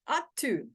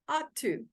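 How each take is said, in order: Both takes have the same delivery.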